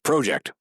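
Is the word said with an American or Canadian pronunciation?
Canadian. The word has a Canadian pronunciation. "We're in Canada, so we can say project"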